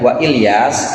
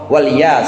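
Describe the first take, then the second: First: A glottal stop separates wa from Ilyas. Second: Wa runs smoothly into Ilyas without a break. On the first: "kalau hamzah qata'" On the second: "jadi hamzahnya wasal"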